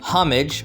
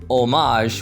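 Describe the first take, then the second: First: The word is said with a British English pronunciation. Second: The word is said with a French-style pronunciation. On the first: "from British English" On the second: "which is where the French origin comes from"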